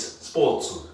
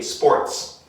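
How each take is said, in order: First: Sports said as Japanese-style supotsu, with the r dropped; katakana English. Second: Sports said with a clear English r and no extra vowels; proper English. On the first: Teacher showing students the katakana version of the word, supotsu. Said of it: "in katakana English". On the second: Teacher modelling correct English for students, clear sports. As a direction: say sports the English way, crisp consonant cluster. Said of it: "Okay, sports". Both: Shown as a demonstration.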